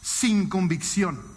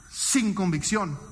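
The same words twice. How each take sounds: First: Sin convicción drawn out slowly, each syllable weighted; slow stress. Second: Sin convicción said slowly, stress on sin. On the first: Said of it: "Emoción". (sin convicción, lento y marcado) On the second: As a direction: drag out sin convicción for the point. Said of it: "con emoción". (sin convicción, despacio y con peso) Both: Shown as a demonstration.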